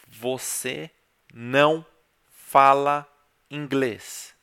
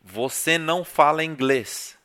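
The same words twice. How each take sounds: First: It is said slowly. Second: It is said at normal speed.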